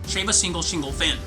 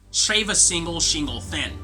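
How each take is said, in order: First: It is said quickly. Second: It is said slowly.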